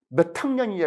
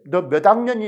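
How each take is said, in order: First: Said in the usual way. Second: 너 몇 학년이 clipped Jeolla style without 냐, said louder; 학년이 ending short, Jeolla way; 학년이, Jeolla dialect question. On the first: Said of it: "이렇게 물어보지 않죠". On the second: Shown as a demonstration. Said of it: "이렇게 전라도 사람 물어보지".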